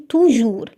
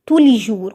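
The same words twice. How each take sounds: First: "تو جور" said with no "لي" between; wrong form, article missing. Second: "تو لي جور" with "لي" clearly between; separating article put in. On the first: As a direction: model the mistake "تو جور", two words directly together. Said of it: "ما اقولش تو جور". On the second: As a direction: teach the correct "تو لي جور", article audible in the middle. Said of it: "لازم يبقى فيه فاصل". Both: Shown as a demonstration.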